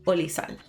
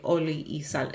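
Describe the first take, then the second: First: The 'i' merges into 'oli' with no separate sound. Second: A separate 'i' sound is heard between the words. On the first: "It'll just say oli sal" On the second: "it won't say oli y sal"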